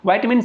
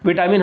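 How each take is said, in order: First: The first syllable sounds like 'vye'. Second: The first syllable sounds like 'vit'. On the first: It sounds like fluent English speech. "English में जो है थोड़ा सा वो fluency के साथ बोला जाता है" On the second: It is the everyday colloquial way. "हम लोग बोलचाल की भाषा में बोलते आ रहे हैं"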